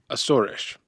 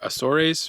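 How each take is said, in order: First: The name is said with native Portuguese pronunciation. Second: The name is said with Spanish-style pronunciation. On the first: "the correct native pronunciation is" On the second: "if you took three years of high school Spanish like me, then you say"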